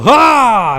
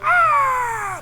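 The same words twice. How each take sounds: First: It is a short, human battle shout. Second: It is a shrill, screeching, eagle-like scream.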